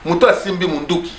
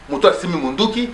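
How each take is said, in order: Both takes have the same delivery.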